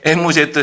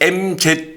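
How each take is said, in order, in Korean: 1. 이 글자들은 'e-mu-je-teu'로 읽어요. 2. 이 글자들은 'em-ji'로 읽어요.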